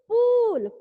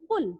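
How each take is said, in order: First: The vowel is a long 'oo' sound. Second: The vowel is a short 'u' sound. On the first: The speaker calls it wrong. "पूल कोई शब्द नहीं होता है" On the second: The speaker calls it right. "छोटे ऊ की मात्रा का, यानी पुल"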